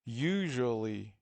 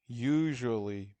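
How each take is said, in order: First: Usually drawn out slowly, the you at its start made clear; modeling a word. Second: Usually repeated slowly, a touch louder, every sound clear; slow second take of usually for repeating; repeating the model word. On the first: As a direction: stretch out Usually so they hear you. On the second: (تکرار آهسته و واضح usually) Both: Shown as a demonstration. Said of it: "و صدای you".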